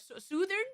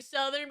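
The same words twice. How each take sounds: First: "Southern" as "SOO-thern", pitched up; varied pronunciation. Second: Said in the usual way. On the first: Shown as a demonstration. Showing chat another way to say it, "Southern" said "SOO-thern". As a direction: say "Southern" with 'oo' as in "soon", questioning. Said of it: "I can say it as many different ways". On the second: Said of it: "that's how I say it".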